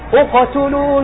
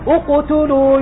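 First: The q echo leans toward an 'a' vowel. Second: The q echo copies the vowel before it. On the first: The speaker calls it right. "هذا ما إلى الفتحة" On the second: The speaker calls it wrong. "هذا تتبع الحركة التي قبلها"

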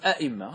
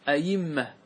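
First: Both hamzas are pronounced as glottal stops. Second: The second hamza is pronounced as a y sound. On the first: "تأتي بهمزتين" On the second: "قلبوا الهمزة الثانية إلى ياء"

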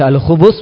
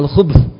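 First: The b is followed by a short u vowel. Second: The b runs straight into the th sound. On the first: It refers to male devils. "di dhamma" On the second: It refers to evil. "di sukun"

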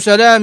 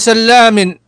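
First: The l sound is short and single. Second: The l sound is long and doubled. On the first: "فأبوه بالتخفيف" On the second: "كله فثقلي"

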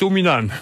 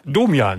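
First: The name is said with an extra n sound. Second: The name is said without an extra n sound. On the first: The speaker calls it wrong. "nicht Dominan" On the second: The speaker calls it right. "Domian, nicht Dominan"

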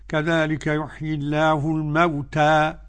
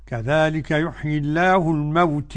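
First: The final vowel is a fully open 'a'. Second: The final vowel leans strongly toward 'e'. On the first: "أنا هقولها الفتحة" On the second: "الإمالة"

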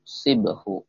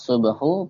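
First: The first vowel is a front 'i' sound. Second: The first vowel is a rounded 'u' sound. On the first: "Bisa dibaca sibahu. ... dan di kasroh" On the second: "Bisa dibaca subahu. Sodnya bisa di domah"

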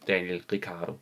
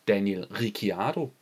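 First: The name is said in a plain, simple way. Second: The name is said with extra, elaborate sounds. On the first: The speaker calls it right. "Det udtales åbenbart bare Daniel Ricciardo" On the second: The speaker calls it wrong. "Jeg har indtil videre hele tiden kaldt ham Daniel Ricciardo. Det hedder han åbenbart ikke"

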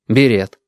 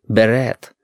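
First: The word has the plain Russian pronunciation. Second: The word has a French-like pronunciation. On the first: The speaker calls it wrong. "Он морщился, когда Стасик или мама говорили" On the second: The speaker calls it right. "следовало произносить ... потому что слова эти из французского языка"

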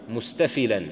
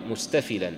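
Both takes have the same delivery.

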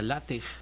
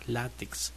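First: The X is sounded like a Spanish 'j'. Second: The X is sounded as 'ks'. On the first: This follows how Jalapa is pronounced. "si vamos con la forma en que se pronuncia Jalapa, sería LATEX" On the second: This is how the name is actually said. "Que se conoce como LATEX"

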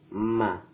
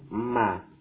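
Both takes have the same delivery.

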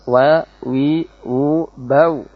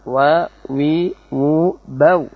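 Both takes have the same delivery.

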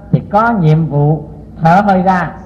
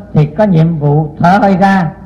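The two takes are said the same way.

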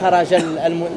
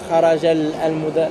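First: The two words are linked together smoothly. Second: The two words are said separately without linking. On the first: The speaker calls it right. "Il y a une liaison. C'est comme si tu as voulu enchaîner directement" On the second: The speaker calls it wrong. "Mais pas"

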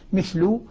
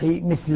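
First: The word ends with a u vowel. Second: The word ends with an a vowel. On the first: This is one group of reciters' reading. "يقرأها بالرفع" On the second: This is the other reciters' reading. "والباقون بالفتح"

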